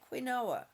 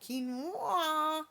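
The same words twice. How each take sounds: First: The word is pronounced just as it is spelled. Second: The word is pronounced differently from its spelling. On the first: The speaker calls it wrong. "because that's how it's spelled" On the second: The speaker calls it right. "It's pronounced quinoa"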